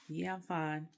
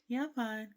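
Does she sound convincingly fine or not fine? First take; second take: not fine; fine. First: The tone sounds unhappy, not really fine. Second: The tone sounds genuinely fine and relaxed. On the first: The speaker is not actually fine. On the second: The speaker really is fine.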